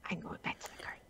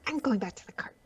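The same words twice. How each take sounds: First: Very soft breathy whisper; faint whisper. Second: Whispering. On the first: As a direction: barely whisper it, stubborn. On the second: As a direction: whisper it firmly to yourself. Whispered decision. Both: Acted.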